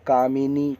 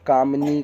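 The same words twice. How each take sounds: First: कामिनी in three beats, "kaa-mi-nee"; कामिनी with a clear "mi"; correct short i. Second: कामनी in two beats, "kaam-nee"; कामनी with m running straight into n; wrong missing vowel. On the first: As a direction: sound the i after m in कामिनी. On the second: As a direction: skip the i after m in कामनी. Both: Shown as a demonstration. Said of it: "छोटी की मात्रा मा में रहेगा".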